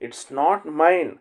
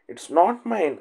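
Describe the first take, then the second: First: Each word stretched out, very slow; a teacher slowing right down so students can repeat; very slow model reading. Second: Said in the usual way. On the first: Shown as a demonstration. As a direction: spell it out slowly for learners. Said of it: "teacher repeats phrase very slowly". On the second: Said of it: "teacher says phrase at normal pace".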